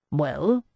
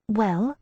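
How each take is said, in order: First: Short impatient question. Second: Higher, lighter repeat of well; echoing question. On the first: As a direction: push him for an answer. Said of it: "Mandelstam said impatiently". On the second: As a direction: echo him from the doorway. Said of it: "I repeated from the doorway". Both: A narrator's reading.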